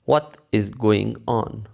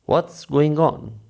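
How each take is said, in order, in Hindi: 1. 'What' और 'is' अलग-अलग शब्दों की तरह बोले जाते हैं। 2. 'What' और 'is' जल्दी से मिलकर एक सिलेबल बन जाते हैं।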